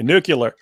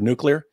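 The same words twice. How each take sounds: First: The middle syllable sounds like 'cue', as 'nucular'. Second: The middle syllable sounds like 'clee', as 'new-clee-er'. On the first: It imitates how a president said the word. The speaker calls it wrong. "He'd say nuclear" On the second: It is the way the word should be said. The speaker calls it right. "you can't say the word nuclear"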